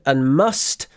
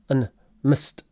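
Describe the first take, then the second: First: It is said with a full, clear vowel. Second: It is said with a short, reduced vowel.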